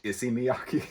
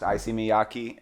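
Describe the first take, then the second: First: Issey Miyake said as ISS-ee mee-AH-kee; correct pronunciation. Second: Issey Miyake said as EYE-see mee-YAH-kee; wrong pronunciation. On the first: Retold or imitated. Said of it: "It's actually pronounced". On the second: Shown as a demonstration. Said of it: "his name actually was pronounced".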